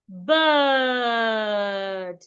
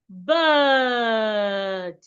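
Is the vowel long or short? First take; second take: long; long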